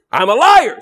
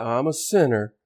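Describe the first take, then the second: First: Loud, high outright admission; blunt confession. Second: Low, soft token confession; vague, generalized admission. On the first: Preacher naming the specific sin, loud blunt confession. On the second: Proud churchgoer generalizing his sins, soft noncommittal admission. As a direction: admit it softly, committing to nothing. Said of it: "we want to generalize". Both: Acted.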